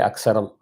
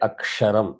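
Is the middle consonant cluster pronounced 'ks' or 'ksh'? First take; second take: ks; ksh. First: The middle cluster is pronounced 'ks'. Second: The middle cluster is pronounced 'ksh'. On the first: The speaker calls it wrong. "It's not the correct pronunciation" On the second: The speaker calls it right. "When I say Aksharam"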